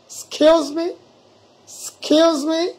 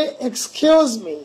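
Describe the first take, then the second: First: "excuse" said as skeos, slow and clear; correct pronunciation. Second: "Excuse" dragged out very slowly with an extra ex; slow, wrong "Excuse me"; wrong pronunciation. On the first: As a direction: model "Excuse me" carefully. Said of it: "দিয়ে বলতে হবে". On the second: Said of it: "এক্সটাকে বাদ দিতে হবে". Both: Shown as a demonstration.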